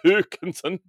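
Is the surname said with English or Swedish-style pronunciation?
Swedish. The surname is said with a Swedish-style pronunciation. The speaker calls it right. "I need the Hoekensen"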